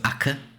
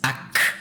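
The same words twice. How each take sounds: First: The name is said plainly, without harshness. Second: The name is said with a harsh, guttural sound. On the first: This is a simplified form used for convenience. "Ak is the the shortened version" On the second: This is the full proper form of the name. "the proper pronunciation is Ak. Like it's it's very harsh"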